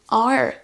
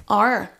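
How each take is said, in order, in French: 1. Le R est un R à l'anglaise. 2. Le R est un R à l'anglaise.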